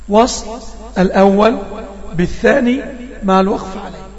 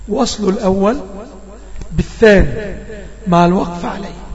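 Both takes have the same delivery.

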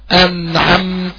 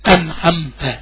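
First: The n and m sounds are held moderately. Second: The n and m sounds are cut short. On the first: The speaker calls it right. "يبقى أنا حافظ على التوسط بتاع النون والميم" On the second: The speaker calls it wrong. "كده غلط. كده النون والميم ما فيش فيهم بينية ولا توسط"

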